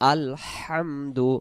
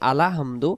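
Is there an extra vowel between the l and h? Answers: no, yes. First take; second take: no; yes. First: The l joins the h with no vowel. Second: An extra vowel is inserted after the l. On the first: The speaker calls it right. "স্পষ্ট হবে আলহামদু" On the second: The speaker calls it wrong. "তখন লামে জবর চলে আসবে"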